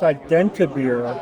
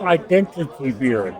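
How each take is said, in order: First: The two words are merged into one word. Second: The two words are said fully and separately. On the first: The speaker calls it right. "it's identibeer" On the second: The speaker calls it wrong. "not identity beer"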